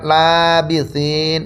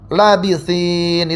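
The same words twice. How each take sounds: First: The vowel after the l is long. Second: The vowel after the l is short. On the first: "dengan mad lamnya dipanjangkan" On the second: "lamnya itu dipendekkan tanpa mad"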